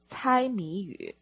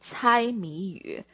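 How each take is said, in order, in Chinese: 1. 这个词组是用普通话发音的。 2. 这个词组是用普通话发音的。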